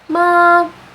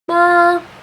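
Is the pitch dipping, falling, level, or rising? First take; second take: level; level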